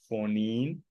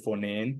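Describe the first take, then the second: First: The last vowel sounds like 'ee'. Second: The last vowel sounds like 'eh'.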